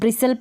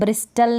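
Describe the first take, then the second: First: The t sound is silent. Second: The t sound is pronounced. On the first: The speaker calls it right. "इसको ब्रिसल पढ़ेंगे" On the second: The speaker calls it wrong. "ब्रिस्टल नहीं पढ़ेंगे"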